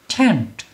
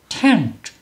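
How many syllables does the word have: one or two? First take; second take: one; one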